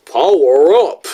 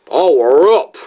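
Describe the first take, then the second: First: Loud, hammed-up mimicry of a clip; mock his catchphrase with an exaggerated swoop; bad impression. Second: Second, punchy stab at mimicking him; bad impression. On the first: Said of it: "still a bad impression". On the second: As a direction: overdo the mimicked catchphrase, rising on up. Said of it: "probably wasn't any better".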